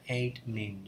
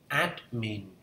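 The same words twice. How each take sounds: First: The first vowel is not an ae sound. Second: The first vowel is an ae sound. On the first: The speaker calls it wrong. "mình đọc sai" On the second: The speaker calls it right. "âm a e"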